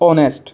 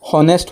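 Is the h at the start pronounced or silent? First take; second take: silent; pronounced. First: The word starts with a vowel, no h sound. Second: The word starts with an audible h sound. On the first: The speaker calls it right. "এইচটো উচ্চাৰণ কৰিব নালাগে" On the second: The speaker calls it wrong. "হনেষ্ট পৰিব"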